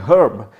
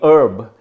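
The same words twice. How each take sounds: First: The word starts with a clear H sound. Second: The word starts with a vowel, no H sound. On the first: This is how it is said in India. "we pronounce the H is strong" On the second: This is how it is said in America. "we pronounce it as herb, as if H is silent"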